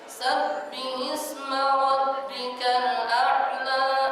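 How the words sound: The voice sounds nasal throughout. The speaker calls it wrong. "suara hidung semuanya nanti"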